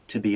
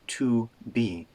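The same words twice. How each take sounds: First: The two words are linked together. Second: The two words are said separately. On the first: The speaker calls it right. "we link those two sounds together" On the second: The speaker calls it wrong. "Not to be"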